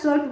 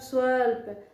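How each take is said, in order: First: The word is said quickly as one unit. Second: The word is said slowly, breaking into parts. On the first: It is spoken as an ordinary whole word. "आसानी से मुख से बाहर आ जाएगा" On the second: It is split into its parts for sandhi analysis. "धीरे धीरे उच्चारण"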